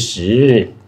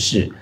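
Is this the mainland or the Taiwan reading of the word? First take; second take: mainland; Taiwan. First: The word is said in the mainland reading. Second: The word is said in the Taiwan reading. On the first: "你们内地讲的是时" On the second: "我们台湾讲的是事"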